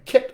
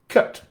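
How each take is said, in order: First: The vowel is said in a plain accent. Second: The vowel is said in a South African accent. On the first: "instead of saying kit" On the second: "I'd say cut"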